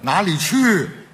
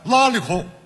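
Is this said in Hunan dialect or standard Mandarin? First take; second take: standard Mandarin; Hunan dialect. First: It is said with a standard Mandarin accent. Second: It is said with a Hunan dialect accent.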